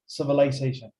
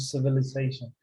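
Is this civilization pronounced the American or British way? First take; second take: British; American. First: It uses the British pronunciation of the word. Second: It uses the American pronunciation of the word. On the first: This is the proper dictionary form. The speaker calls it right. "But the correct one is civilization" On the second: Many people say it this way, but it is less proper. The speaker calls it wrong. "I have heard people saying civilization ... it's an American pronunciation"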